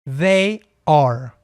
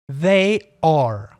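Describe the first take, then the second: The two takes are said the same way.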